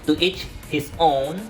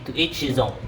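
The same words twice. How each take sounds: First: The words are said separately, without linking. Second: The words are blended smoothly into one flow. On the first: The speaker calls it wrong. "it's very difficult to pronounce it like that" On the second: The speaker calls it right. "as easier and as more swift and beautifully sounding"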